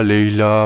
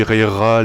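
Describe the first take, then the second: First: "Leila" with L for both Rs; L pronunciation. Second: "Reira" with French R sounds; R pronunciation. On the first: Reviewer trying the other version, "Leila" with two Ls. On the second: Reviewer trying a character's name, "Reira" with two Rs. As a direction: say "Reira" with R in both syllables. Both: Shown as a demonstration. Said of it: "je sais pas comment ça se prononce non plus".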